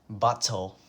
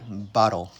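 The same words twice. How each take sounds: First: The middle consonant is a clear T sound. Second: The middle consonant sounds like a D. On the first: The speaker calls it wrong. "you think we would say bottle" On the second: The speaker calls it right. "It sounds like bottle with a D"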